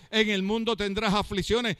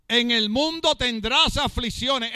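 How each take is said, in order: First: Said in the usual way. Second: Preached quote. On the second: Acted. First quote, preached loud and slow.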